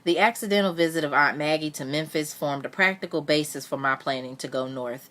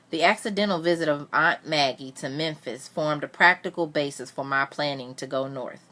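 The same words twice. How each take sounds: First: It is read fast. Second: It is read slowly.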